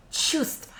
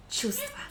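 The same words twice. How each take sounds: First: Чувства as chustva; whispered chustva; silent v. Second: Чувства high, rising, with no v, chustva; чувства as chustva, soft. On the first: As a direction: drop the v in чувства. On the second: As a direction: lift чувства up, v silent. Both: Shown as a demonstration. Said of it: "without this letter V".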